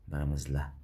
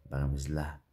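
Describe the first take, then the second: No difference in how they are said.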